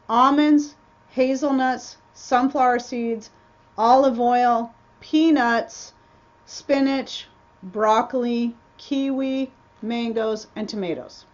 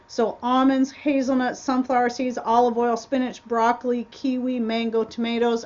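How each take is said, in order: First: The list is read slowly. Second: The list is read fast.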